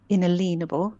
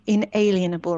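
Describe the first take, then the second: First: The middle of the word sounds like 'lean'. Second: The middle of the word sounds like 'alien'. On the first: "I say inalienable" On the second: "some people say"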